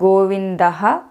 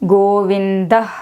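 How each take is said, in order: First: The word ends with an added ha syllable. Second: The word ends in a soft breath. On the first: "South Indians do it as" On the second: "is the correct pronunciation"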